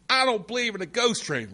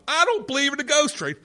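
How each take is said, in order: First: It is said at a softer volume. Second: It is said at a louder volume.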